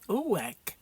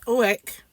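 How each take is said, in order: First: It is said in a northern accent, run together. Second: It is said in a plain, standard accent.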